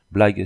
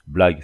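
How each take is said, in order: First: Sharp louder outburst; indignant exclamation; exclaimed indignantly. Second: Scoffing, louder, lower; a doubting snort of a word; incredulous. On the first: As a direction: fire the word back, offended. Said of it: "s'écria l'Irlandais". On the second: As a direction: scoff in disbelief. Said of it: "d'un air incrédule". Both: A narrator's reading.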